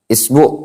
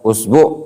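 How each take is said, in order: First: The word begins with an i vowel. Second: The word begins with a u vowel. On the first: "isbi dengan mengkasroh" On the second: "Boleh antum dhammah"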